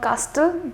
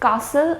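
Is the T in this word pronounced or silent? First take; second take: pronounced; silent. First: The T sound is pronounced. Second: The T sound is silent. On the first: The speaker calls it wrong. "not castle, that will be wrong" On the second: The speaker calls it right. "the T needs to be silent"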